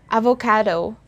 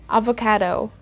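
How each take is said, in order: The two takes are said the same way.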